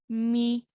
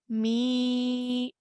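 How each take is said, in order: First: The vowel is short, held for one beat. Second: The vowel is long, held for two beats. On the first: "any letter with a kasra is pronounced for one count" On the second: "prolong our sound for one count to two counts"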